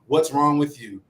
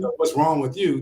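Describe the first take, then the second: First: It is said in a neutral tone. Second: It is said in an accusatory tone.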